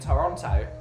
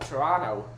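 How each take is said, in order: First: Toronto is said with a clear t sound. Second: Toronto is said without the second t sound.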